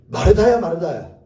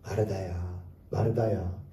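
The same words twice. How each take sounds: First: It sounds harsh and scolding. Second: It sounds warm and loving.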